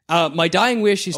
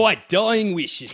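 First: It is said in the speaker's ordinary voice. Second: It is said in an exaggerated Australian accent.

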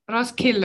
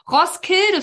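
First: The d sound is left silent. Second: The d sound is clearly pronounced. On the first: The speaker calls it right. "that sounds more Norwegian" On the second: The speaker calls it wrong. "is what I used to call it"

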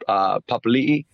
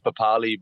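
First: A glottal catch separates the final two vowels. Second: The final two vowels run together without a catch. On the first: This is the original family name being reclaimed. The speaker calls it right. "it's supposed to be pronounced Papali'i, with an apostrophe in" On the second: This is the simplified family name used growing up. The speaker calls it wrong. "the name that he sort of gave us"

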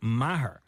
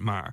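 First: The name is said as two syllables. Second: The name is said as one syllable. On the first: This is how the Tipperary teacher said it. "she pronounced it Maher" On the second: This is how the name's owner says it. "I pronounce it Mar"

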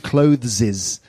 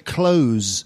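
First: The word is said with an effortful th sound. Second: The word is said with a plain z sound. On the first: The speaker calls it wrong. "And then you sound like, what's his name? Gollum" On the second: The speaker calls it right. "Just say close, like close the door"

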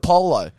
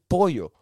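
First: The word is said with an English-style pronunciation. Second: The word is said with a Spanish pronunciation. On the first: The speaker calls it wrong. "they always try to be cultured" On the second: The speaker calls it right. "It's like it's pollo"

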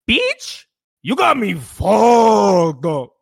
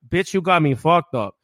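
First: It is said with a Mexican Spanish accent. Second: It is said in a plain American accent.

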